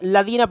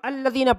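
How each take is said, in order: First: The word starts directly with an L sound. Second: The word starts with a short a vowel. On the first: The speaker calls it wrong. "बच्चे इसमें यहाँ पर ये गलती करते हैं" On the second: The speaker calls it right. "इस पर हरकत लगा देंगे ज़बर की"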